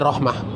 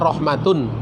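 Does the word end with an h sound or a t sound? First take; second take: h sound; t sound. First: The word stops on a final h sound. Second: The word ends with a full t-un ending.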